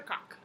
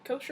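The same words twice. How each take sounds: First: "Koch" said like "cock", hard k ending; short-vowel pronunciation. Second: "Koch" said like "coach", with a soft sh-like ending; long-o pronunciation. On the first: Offering the other guess at the author's surname, "Koch" as "kock". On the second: Offering one guess at the author's surname, "Koch" as "kohsh". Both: Shown as a demonstration. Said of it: "I don't know".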